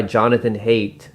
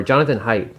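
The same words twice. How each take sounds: First: Haidt said like "hate"; one possible pronunciation. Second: Haidt said like "height"; alternative pronunciation. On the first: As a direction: say Haidt to rhyme with "late". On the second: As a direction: say Haidt to rhyme with "kite". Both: Shown as a demonstration. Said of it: "I can't remember how it's pronounced".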